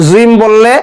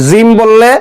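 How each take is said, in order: The two takes are said the same way.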